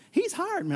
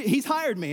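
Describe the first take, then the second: First: High-pitched reading. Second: Said in the usual way. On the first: Acted. Levite answers the travelers about Micah, in an exaggerated high voice. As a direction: jump far up in pitch for the quote. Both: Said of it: "No, I won't read it like that".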